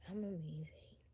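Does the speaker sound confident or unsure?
unsure. It sounds unsure and unconvincing.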